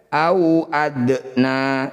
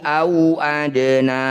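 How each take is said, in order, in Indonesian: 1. Bunyi d memantul dengan dengung yang kuat dan berlebihan. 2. Bunyi d memantul dengan dengung yang ringan dan mengalir.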